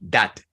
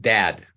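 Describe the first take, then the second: First: The vowel is short and clipped. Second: The vowel is long and drawn out. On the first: The speaker calls it wrong. "It's not that" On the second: The speaker calls it right. "Dad is a longer one"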